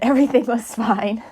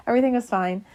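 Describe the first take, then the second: First: Said in the usual way. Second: Laughing it off, quick and a bit higher; giggly, brushing it off. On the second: Real, not acted. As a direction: repeat it through a laugh, amused at yourself.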